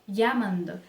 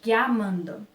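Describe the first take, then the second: The two takes are said the same way.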